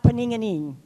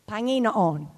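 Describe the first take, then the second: First: The syllables are slurred and run together. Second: Each syllable is pronounced with exaggerated care. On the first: The speaker calls it wrong. "Otherwise, it comes out paninganing" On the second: The speaker calls it right. "I said it right, but I have to really over-exaggerate"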